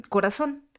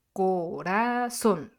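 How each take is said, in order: First: Said in the usual way. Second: "corazón" slowly drawn out syllable by syllable; split into syllables. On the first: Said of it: "si yo digo la palabra". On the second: Shown as a demonstration. Teacher showing the tonic syllable, "corazón" split slowly. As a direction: divide "corazón" into co, ra, zón, landing on the last. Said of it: "lo estamos dividiendo".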